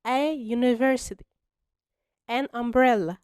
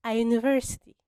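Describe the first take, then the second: First: Slowly, each sound separated; slow clear model. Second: Said in the usual way. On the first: Shown as a demonstration. Teacher modelling the answer for students, slow and clear. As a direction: spell it out for beginners. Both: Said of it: "فهنقول".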